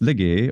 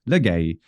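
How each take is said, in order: First: The word ends in an 'eh' sound. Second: The word ends in an 'ay' sound. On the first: The speaker calls it right. "It's lege or legi, depending on the century" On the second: The speaker calls it wrong. "everyone who uses Erasmian thinks that it is a for legay, and it's not"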